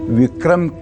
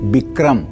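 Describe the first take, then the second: First: The word begins with a v sound. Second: The word begins with a b sound. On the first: This is the standard form of the word. "व की जगह ब लिखा हुआ है" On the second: This is the form written in the text. "ब लिखा हुआ है"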